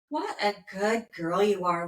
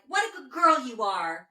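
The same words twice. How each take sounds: First: It is said slowly and calmly. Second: It is said quickly and excitedly.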